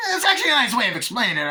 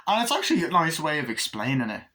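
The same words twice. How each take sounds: First: High, loud, rapid-fire laughing delivery; Tarantino. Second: Said in the usual way. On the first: Shown as a demonstration. Film fan parodying the director, manic fast chatter. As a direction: blurt it out excitedly, much higher and faster. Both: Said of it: "it's not like Tarantino".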